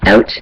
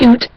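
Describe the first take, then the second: First: Said in the usual way. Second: "oot" with a long oo vowel, as in boot; "oot", the caricatured version of "out"; mock "oot" pronunciation. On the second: Shown as a demonstration. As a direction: say "oot" to show the wrong vowel. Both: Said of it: "not oot".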